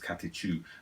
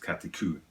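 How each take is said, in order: First: The last syllable starts with a 'ch' sound. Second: The last syllable starts with a 'k' sound. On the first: This is the American way of saying it. "in America it's katechu" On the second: This is the British way of saying it. "in British it's kateku"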